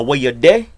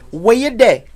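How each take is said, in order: First: Said in the usual way. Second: Nicest voice. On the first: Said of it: "is still, for a man, an interrogation". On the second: Shown as a demonstration. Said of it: "in your nicest voice".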